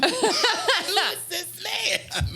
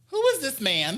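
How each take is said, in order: First: Very high, loud, stretched-out squeal; hammed-up drunk disbelief. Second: High, incredulous question; tipsy disbelief. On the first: Drunk singer baffled by a stranger, loud drawn-out mock squeal. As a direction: draw each word out in laughing mock astonishment. Repeats reaction, much bigger. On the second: Retold or imitated. Drunk singer questioning a stranger's approach, high incredulous voice. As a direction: ask it high-pitched, as if baffled.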